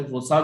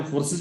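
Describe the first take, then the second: First: फोर्साज said as "for-saaj", long "aa" and a "j" ending; फोर्साज ending in a long "aaj"; alternate Forces pronunciation. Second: फोर्सेस said as "for-sis", short unstressed ending; फोर्सेस ending in a soft "sis"; Forces pronunciation. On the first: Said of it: "कुछ लोग फोर्साज बोलते हैं". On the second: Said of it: "कुछ लोग फोर्सेस बोलते हैं". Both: Shown as a demonstration.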